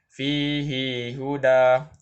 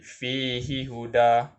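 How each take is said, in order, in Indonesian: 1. Vokal setelah h dipanjangkan. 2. Vokal setelah h pendek. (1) "Imam Ibnu Katsir sahaja yang membaca silah" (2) "Imam lain akan membaca tidak silah"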